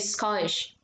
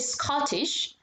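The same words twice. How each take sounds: First: The middle T is dropped. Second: The middle T is clearly pronounced. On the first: "they sometimes drop the T's" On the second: "they would not say Scottish"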